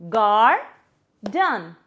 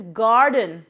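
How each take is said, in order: First: "gar-dun" split by a clear pause, first part rising; syllable by syllable. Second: Said in the usual way. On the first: Shown as a demonstration. Teacher dividing a word for kids, "gar-dun" syllable by syllable. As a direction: say "gar-dun" as two separate beats. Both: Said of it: "divide the word with some claps".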